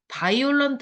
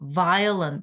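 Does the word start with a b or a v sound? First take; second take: b; v. First: It starts with a b sound, full Korean-style vowels. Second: It starts with a v sound, reduced middle vowel. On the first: The speaker calls it wrong. "바이올런트 하면 안 돼" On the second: The speaker calls it right. "바이올 아니고 violent"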